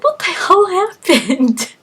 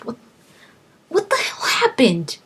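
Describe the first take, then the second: First: Much higher and slow, dragged-out disbelief; waking up with no idea where you are; bewildered. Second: Whispered, higher disbelief; stunned whisper. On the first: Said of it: "You're like". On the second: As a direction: breathe it out in shock. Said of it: "I'm just like". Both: Retold or imitated.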